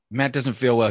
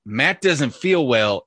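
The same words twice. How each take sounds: First: Said in the usual way. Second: "Matt doesn't feel well" slowly spelled out; pointed quotation. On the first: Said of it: "text from your wife that said". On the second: Shown as a demonstration. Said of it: "is code for".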